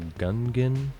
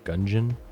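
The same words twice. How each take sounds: First: The word does not rhyme with dungeon. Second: The word rhymes with dungeon. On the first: The speaker calls it wrong. "that friend also pronounces it" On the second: The speaker calls it right. "like dungeon"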